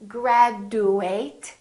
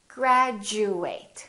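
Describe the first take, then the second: First: The D is said as a plain D sound. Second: The D is said as a J sound. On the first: The speaker calls it wrong. "we don't say graduate" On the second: The speaker calls it right.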